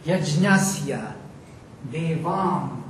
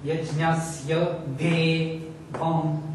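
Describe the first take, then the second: First: "Yajnasya devam" as separate words, each with its accent and fall. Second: "yajnasya de, vam" slow in metrical beats, splitting de from vam; iambic rhythm. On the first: Teacher reciting the verse word by word, accented "Yajnasya devam". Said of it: "this is the accent of the word". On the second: Teacher testing whether the words fit the metre, iambic "yajnasya de, vam". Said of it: "if I read in iambic rhythm". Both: Shown as a demonstration.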